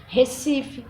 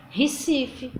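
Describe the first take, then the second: First: "Recife" with a closed e, "Hesifi"; first syllable as "he"; closed variant. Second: "Recife" said with an i sound, "Hisifi"; first syllable as "hi"; open variant. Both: Shown as a demonstration. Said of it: "na palavra Recife".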